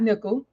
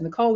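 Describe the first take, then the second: First: The name is said as Nickel. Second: The name is said as Nicole. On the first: The speaker calls it wrong. "not Nickel" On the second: The speaker calls it right. "that is Nicole"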